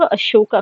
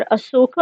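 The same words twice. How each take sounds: First: Said in the usual way. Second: अशोक in its Prakrit form, Asoka; Prakrit pronunciation. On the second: Shown as a demonstration. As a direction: say अशोक with s in place of sh. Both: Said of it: "उसका pronunciation है".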